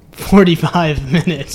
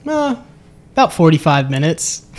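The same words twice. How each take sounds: First: Louder insistence breaking into laughter; insisting seriously. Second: Joking reply after a hesitant "uh"; smiling joke. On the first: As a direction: repeat it emphatically, laughing mid-phrase. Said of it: "No, seriously". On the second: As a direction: answer casually with a smile in the voice. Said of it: "with a smile". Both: Retold or imitated.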